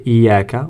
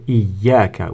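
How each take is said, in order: First: The y sound in the middle is short. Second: The y sound in the middle is doubled. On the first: The speaker calls it wrong. "we don't say iyaka" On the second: The speaker calls it right. "we say iyaka with shadda"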